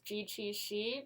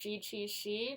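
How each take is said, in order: First: The consonants are said with English-like articulation. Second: The consonants are said with English-like articulation.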